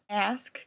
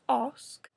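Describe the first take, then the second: First: It is said in a non-British accent. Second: It is said in a British accent.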